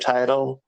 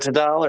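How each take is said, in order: First: The word is said in a plain, ordinary way. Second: The word is said in a fancy, posh way.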